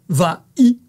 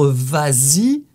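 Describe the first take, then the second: First: No z sound links the two words. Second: A z sound links the two words. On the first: The speaker calls it wrong. "plutôt que" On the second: The speaker calls it right. "c'est plus joli de faire la liaison"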